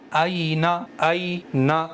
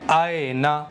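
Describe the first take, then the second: First: "اینا" with a clear ai vowel; maroof aina. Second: "اینا" with an open e vowel, aena; majhul aina. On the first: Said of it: "یہ ہے معروف پڑھنا". ("اینا" معروف پڑھیں) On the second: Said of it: "یہ ہے مجہول". ("اینا" مجہول آواز میں، ایینا) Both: Shown as a demonstration.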